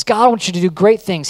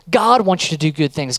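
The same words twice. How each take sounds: First: "great" lifted and leaned on as the step up from good; stress on great. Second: Said in the usual way. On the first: Shown as a demonstration. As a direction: build it up, hit "great things".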